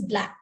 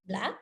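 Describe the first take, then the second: First: Said in the usual way. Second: Soft "Black" sweeping up into a question; rising intonation. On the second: Shown as a demonstration. Clinician prompts patient to say more, "Black" softly rising. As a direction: say "Black" quietly, pitch climbing as if asking. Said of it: "use this with the rising intonation".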